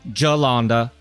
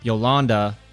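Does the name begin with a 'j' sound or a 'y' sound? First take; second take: j sound; y sound. First: The name begins with a 'j' sound. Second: The name begins with a 'y' sound. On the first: This is the way it is said in the American South. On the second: This is the way it is said in Switzerland.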